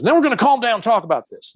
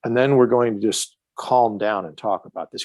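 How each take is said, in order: First: Put-on higher, fast Southern cop accent; Southern cop accent echoing the calm-down line. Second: Said in the usual way. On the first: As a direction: parrot it back as the Southern cop. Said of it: "That's why I'm doing that Southern accent". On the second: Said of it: "I said".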